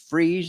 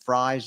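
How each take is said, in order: First: The vowel sounds like ee in breeze. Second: The vowel sounds like eye in eyes. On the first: It is the winter pronunciation. "it's freeze in the winter" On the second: It is the summer pronunciation. "and fries in the summer"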